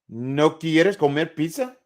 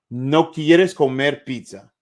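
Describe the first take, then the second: First: It is said as a question, rising at the end. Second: It is said as a statement, falling at the end.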